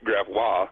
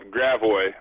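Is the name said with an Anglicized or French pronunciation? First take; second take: French; Anglicized. First: It is said with a French pronunciation. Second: It is said with an Anglicized pronunciation. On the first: The speaker calls it right. "which should be Gravois" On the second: The speaker calls it wrong. "everyone pronounces incorrectly"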